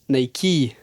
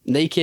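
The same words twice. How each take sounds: First: It is two syllables ending in an ee sound. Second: It is one syllable with no final ee sound. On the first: The speaker calls it right. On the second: The speaker calls it wrong.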